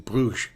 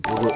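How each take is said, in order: First: The word ends with a soft ch sound. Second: The word ends with a hard g sound. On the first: The speaker calls it right. "because it's pronounced like an I C H" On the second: The speaker calls it wrong. "you don't pronounce a G like a G at the end"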